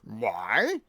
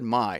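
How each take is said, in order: First: It is said in a grand, self-important way. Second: It is said plainly, in an ordinary way. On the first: A ruler who sees everything as his own. "if you're the king of the world" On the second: An ordinary person talking about their own things. "That that would be normal"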